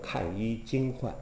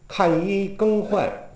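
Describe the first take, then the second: First: The third syllable is pronounced jing. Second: The third syllable is pronounced geng. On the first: This is the reading used on the opera stage. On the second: This is the everyday reading of the word.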